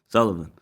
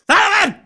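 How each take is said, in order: First: The name is said mildly, with little emphasis. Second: The name is said forcefully, with strong emphasis.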